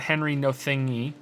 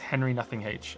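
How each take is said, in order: First: The name ends as 'no thingy'. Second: The name ends as 'nothing H'. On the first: The speaker calls it wrong. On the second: The speaker calls it right. "is Henry Nothing H"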